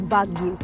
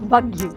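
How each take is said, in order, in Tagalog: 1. Nagsisimula ang salita sa tunog na V. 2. Nagsisimula ang salita sa tunog na V.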